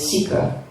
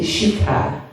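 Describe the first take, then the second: First: The word begins with a plain s sound. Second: The word begins with an sh sound. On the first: This is the common everyday way to say it. The speaker calls it wrong. "generally everyone calls it Sikha" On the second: This is the proper traditional way to say it. The speaker calls it right. "but it's actually Shikha"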